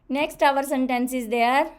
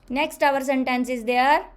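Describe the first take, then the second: No difference in how they are said.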